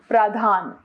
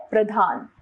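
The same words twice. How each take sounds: First: प्रधान with a long first aa; wrong pronunciation. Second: Said in the usual way. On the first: Shown as a demonstration. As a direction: say प्रधान as praa-dhaan. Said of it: "अशुद्ध रूप". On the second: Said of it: "इसका शुद्ध है".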